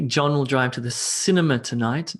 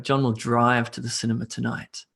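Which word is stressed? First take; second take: cinema; drive. First: The stress falls on the word cinema. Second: The stress falls on the word drive. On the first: He goes to the cinema, not the restaurant. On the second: He goes by car, not by bicycle.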